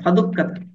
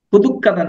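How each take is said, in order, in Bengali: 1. প্রথম সিলেবলে স্বরবর্ণ 'a' আছে। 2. প্রথম সিলেবলে স্বরবর্ণ 'u' আছে। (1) "ফাদুক্কাতা, ফা অতঃপর" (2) "এখানে ফু হয়ে গেছে, এটা সংশোধনযোগ্য।"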